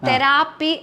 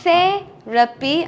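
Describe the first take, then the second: First: The stress is on the second syllable. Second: The stress is on the first syllable. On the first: The speaker calls it wrong. "ആയിലാണ് നമ്മൾ stress കൊടുക്കുന്നത്" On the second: The speaker calls it right. "ആണ് actually English pronunciation"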